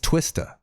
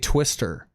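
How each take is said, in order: First: The name ends with an 'ah' sound. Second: The name ends with an 'er' sound. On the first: The speaker calls it right. "his name is spelled T W I S T A ... say it like that" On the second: The speaker calls it wrong. "I used to say Twister, and I'd get made fun of"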